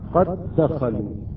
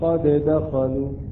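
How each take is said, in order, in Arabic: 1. الدالان تندمجان في دال واحدة مشددة. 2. الدال الأولى تُنطق منفصلة مع ارتداد وصدى خفيف. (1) "لماذا لا نقلقل هذه الدالة؟" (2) "لماذا لا نقرأ قد دخلوا؟"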